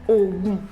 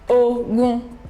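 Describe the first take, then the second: First: Both syllables are on a low tone. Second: Both syllables are on a mid tone. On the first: "Do, Do" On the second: "Re, Re"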